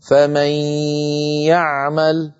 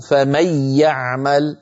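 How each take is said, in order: First: فمن يعمل with a long held nasal glide into the y; partial idgham demo. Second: فمن يعمل as "famay-ya'mal", brief doubled y, no nasal hum; without ghunnah. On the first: Teacher shows how it is pronounced, ghunnah kept. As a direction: linger on the ghunnah between فمن and يعمل, then finish. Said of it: "يكون النطق هكذا". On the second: Teacher shows the hypothetical shadda reading, without ghunnah. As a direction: merge the n of فمن fully into the y of يعمل, unheld. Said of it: "من غير غنة". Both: Shown as a demonstration.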